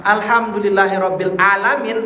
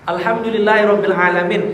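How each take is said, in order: First: "alamin" begun with a glottal-stop a; hamzah for ain. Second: ALAMIN begun with a throat-constricted Arabic ain; correct ain. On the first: Preacher showing the fatal mistake, alamin with hamzah instead of ain. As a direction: say ALAMIN with a plain hamzah a, no throat constriction. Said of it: "Kalau pakai hamzah". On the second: Preacher showing mothers the correct Arabic letter, alamin with ain. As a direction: say "alamin" with the pharyngeal ain, not a plain a. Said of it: "Alamin pakai ain". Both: Shown as a demonstration.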